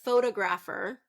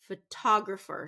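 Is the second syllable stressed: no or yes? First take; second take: no; yes. First: The stress is not on the second syllable. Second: The stress is on the second syllable. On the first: The speaker calls it wrong. "we don't want that one" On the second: The speaker calls it right. "second syllable stress"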